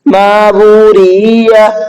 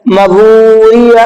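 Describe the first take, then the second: First: The third vowel is long instead of short. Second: The first vowel is short instead of long. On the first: "रा खिंच गया।" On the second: "मीम नहीं खींचा।"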